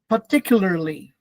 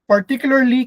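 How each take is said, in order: First: The first R is left out. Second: The first R is clearly pronounced.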